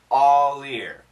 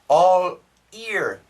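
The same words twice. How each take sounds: First: The L is moved onto the start of 'year'. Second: The L stays separate from the following word. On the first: The speaker calls it right. "just move the L" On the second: The speaker calls it wrong. "A lot of students say all year"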